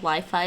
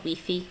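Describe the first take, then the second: First: It is said with an English pronunciation. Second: It is said with a French pronunciation. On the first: "it's not called Wi-Fi" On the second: "in French and in France and in the Netherlands, ... it's called Wi-Fi"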